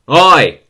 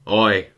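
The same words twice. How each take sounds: First: It is said louder, with anger. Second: It is said more softly.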